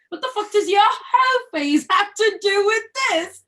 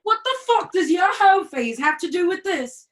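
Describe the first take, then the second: First: Put-on "hoe" hit high and louder in British accent; stress on hoe. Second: "fuck" punched hard and louder; stress on fuck. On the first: Repeating the line to her scene partner, "hoe" stressed. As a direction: throw the weight onto "hoe" this time. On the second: Acted. Reading the play line to her scene partner, "fuck" stressed. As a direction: lean on the word "fuck" as you read the line. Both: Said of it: "the way you did it".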